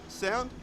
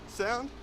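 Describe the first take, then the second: Both takes have the same delivery.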